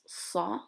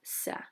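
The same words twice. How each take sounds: First: The S sound is hard and heavy. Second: The S sound is plain and light. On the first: The speaker calls it right. "It's kind of like a hard S" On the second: The speaker calls it wrong. "not Sa"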